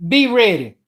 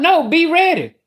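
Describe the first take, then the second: First: Said in the usual way. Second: Be ready pushed up high; higher insistent repeat. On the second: Retold or imitated. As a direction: insist with pitch up. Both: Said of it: "I said".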